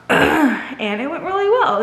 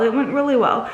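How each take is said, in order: First: Slow, laughing and relieved; laughing, pleased. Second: Said in the usual way. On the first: Real, not acted. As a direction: let a laugh carry the words. Happy report, laughing.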